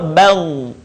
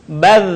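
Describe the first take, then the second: First: Bal ending in a heavy, thickened dh; thick final Dha. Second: Bal ending in a light, thin dh; thin final Dha. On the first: Teacher shows the heavy letter, thick-ended Bal. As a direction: thicken and hold the end of Bal. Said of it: "terdengar menebal". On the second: Teacher shows the light letter, thin-ended Bal. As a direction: keep the end of Bal thin. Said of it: "huruf Dha". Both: Shown as a demonstration.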